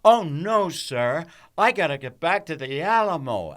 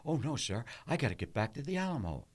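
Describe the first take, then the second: First: Higher and louder, singing it out; big theatrical read. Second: Rattled off fast and offhand; quick flat read. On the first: Actor shows the director's version, high and loud. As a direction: belt the line like a stage hero. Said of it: "here's how I had to read it for him". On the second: Actor shows how he first read the line to Ford, fast and flat. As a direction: toss the line away quickly. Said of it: "This is the way I said it". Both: Shown as a demonstration.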